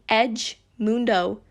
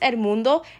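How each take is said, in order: First: The first word is pronounced as 'edge'. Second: The first word is pronounced as 'el'. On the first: The speaker calls it wrong. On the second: The speaker calls it right.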